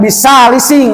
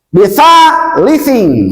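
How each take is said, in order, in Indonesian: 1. Konsonannya dibaca dengan bunyi s. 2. Konsonannya dibaca dengan bunyi th. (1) "Jangan bisalising" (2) "Lihat bentuk tulisannya"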